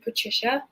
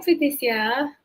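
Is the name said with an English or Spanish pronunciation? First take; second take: English; Spanish. First: The name is said with an English pronunciation. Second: The name is said with a Spanish pronunciation. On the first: "or is it Patricia?" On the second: "I pronounce all Latin-inspired names in a Spanish accent"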